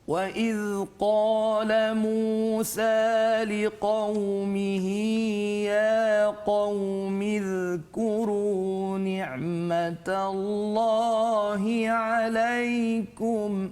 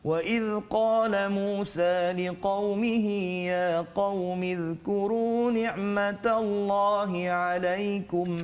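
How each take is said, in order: First: It is recited very slowly and melodically. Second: It is recited slowly, slightly faster than slowest. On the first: "Tingkatan yang paling perlahan disebut sebagai tahqiq" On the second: "tartil itu laju sedikit ya"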